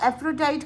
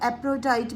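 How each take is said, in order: First: The name is said with an f sound. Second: The name is said with a p sound. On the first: "कुछ लोग इसको एफ्रोडाइट करते हैं" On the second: "बी एच silent हो जाता है, और कुछ लोग एप्रोडाइट भी इसको प्रोनाउंस करते हैं"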